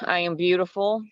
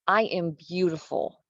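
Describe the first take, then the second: First: It sounds flat and unconvincing. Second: It sounds lively and convinced. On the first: The speaker does not believe the words. The speaker calls it wrong. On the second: The speaker believes the words. The speaker calls it right.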